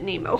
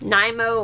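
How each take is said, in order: First: The first vowel sounds like 'ee'. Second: The first vowel sounds like 'eye'. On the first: "I've seen people pronounce it Nemo" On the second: "I thought it was pronounced Nymo"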